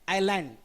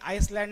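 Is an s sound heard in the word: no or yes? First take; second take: no; yes. First: No s sound is heard in the middle. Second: An s sound is heard in the middle. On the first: The speaker calls it right. "याचा उच्चार आयलँड असतो" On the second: The speaker calls it wrong. "No man is an आईसलँड नाही"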